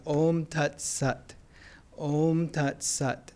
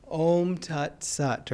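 First: Om Tat Sat said slowly in a flat American accent. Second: Said in the usual way. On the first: Shown as a demonstration. For the group, Om Tat Sat in an American accent. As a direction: chant Om Tat Sat the American way, slow and drawn. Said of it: "I say it with American accent". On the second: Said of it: "or I say it with American accent".

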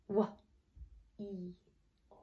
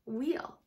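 First: "Wah-e-o" in three soft, separated sounds; phonics-style "Wah-e-o", not blended; sounded out. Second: Said in the usual way. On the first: Shown as a demonstration. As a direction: sound out "Wah-e-o" slowly, gaps between. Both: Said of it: "Look at this".

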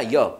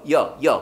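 First: "You" with a full long "oo"; "You" carefully sounded, not weakened; full vowel. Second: "you" weakened to a short "yuh"; "you" with a short open vowel instead of "oo"; reduced vowel. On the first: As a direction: say "You" as the unreduced word "yoo". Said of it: "You가 아니라 you". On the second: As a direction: cut "you" down to "yuh", pitched lower. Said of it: "여로 발음 납니다". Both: Shown as a demonstration.

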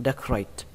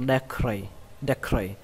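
First: Decorate closed with an audible t; final T. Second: Decorate left open, ending "-ray" without t; no final T. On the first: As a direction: say decorate ending on a released T. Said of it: "kết thúc bằng âm T". (đọc decorate có âm T cuối) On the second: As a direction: say decorate dropping the last T. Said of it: "hoặc là không có cũng được". (đọc decorate bỏ âm T cuối) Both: Shown as a demonstration.

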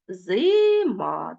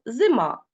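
First: Зима slowly split into зи-ма; syllable by syllable. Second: Said in the usual way. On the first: Shown as a demonstration. Teacher splits зима into syllables for pupils. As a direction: stretch зима out into its two syllables. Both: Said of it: "це два склади".

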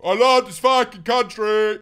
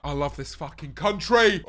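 First: Louder, with a big stress on love; proud shout of love for the country; louder repeat. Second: Said in the usual way. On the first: Real, not acted. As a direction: belt it out the second time. Says the line twice, bigger.

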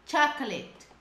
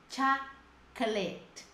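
First: CHOCOLATE run together as "CHAK-let"; CHOCOLATE connected, stress on the first syllable; correct pronunciation. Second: CHOCOLATE very slow, a long gap after "CHAK"; CHOCOLATE in slow, widely separated pieces; careful pronunciation. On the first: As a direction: model CHOCOLATE as one whole word. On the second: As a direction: break CHOCOLATE into "CHAK ... klet" for learners. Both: Shown as a demonstration. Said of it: "Essa palavra é muito pronunciada errada".

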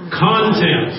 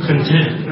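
First: Content as CON-tent, first syllable punched; stress on first syllable. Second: Content as con-TENT, second syllable stressed. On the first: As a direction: hit the CON of Content, like the noun meaning subject matter. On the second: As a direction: say content with the weight on TENT, like the adjective. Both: Shown as a demonstration. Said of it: "the accent on the first syllable".

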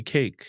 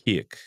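First: "cake" with a long ay diphthong; North American cake. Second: "cake" as "kyek", closer to an ee sound; Jamaican cake. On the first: Teacher contrasting American and Jamaican "cake". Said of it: "in North America". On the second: Teacher showing the Jamaican "cake" to an interviewer. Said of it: "In Jamaica". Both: Shown as a demonstration.

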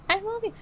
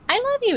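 First: Put-on much higher, soft childlike voice; a hint of a seven-year-old, high and breathy; little girl voice. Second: Put-on high child voice from the spirit box; high-pitched little girl. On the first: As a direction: mimic a tiny girl on the spirit box. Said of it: "the voice of a seven-year-old". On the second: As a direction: squeak it like a young child. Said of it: "really high-pitched".

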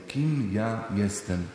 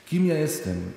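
First: Drawn-out and hushed, turned inward; slow, soft repeat. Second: Said in the usual way. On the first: Shown as a demonstration. Preacher repeats the question to himself, slow and hushed. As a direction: ask it again slowly and quietly, as if to yourself. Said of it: "repeated slower and softer". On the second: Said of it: "repeated question".

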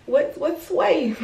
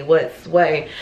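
First: High, slow sing-song tease; drawn-out teasing hello; playful mock greeting. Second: Said in the usual way. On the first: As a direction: stretch it out like a silly joke. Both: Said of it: "I'm just playing".

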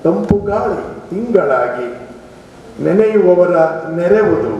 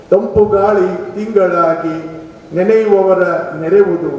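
No difference in how they are said.

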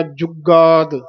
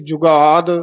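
First: ਜੁਗਾਦ as jug-gaad, pressed g; slightly tight. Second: ਜੁਗਾਦ with gh-like, loose middle sound; mistaken ghagga. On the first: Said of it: "ਥੋੜਾ ਜਿਹਾ ਕੱਸ ਕੇ". (ਜੁਗਾਦ ਥੋੜਾ ਕੱਸ ਕੇ) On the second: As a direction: wrongly say jughaad for ਜੁਗਾਦ. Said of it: "ਘੱਗਾ ਬੋਲ ਜਾਂਦੇ ਹਾਂ". (ਜੁਗਾਦ ਵਿੱਚ ਘੱਗਾ ਬੋਲੋ) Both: Shown as a demonstration.

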